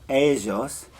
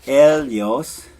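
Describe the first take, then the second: First: "ellos" with a ZH sound, "eh-zhos"; Argentine pronunciation. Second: "ellos" drawn out slow and loud with an LY sound; Spain pronunciation. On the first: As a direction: buzz the LL in "ellos". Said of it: "In Argentina, it's". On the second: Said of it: "So in Spain, it's". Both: Shown as a demonstration. Teacher contrasting the Spanish regional sounds.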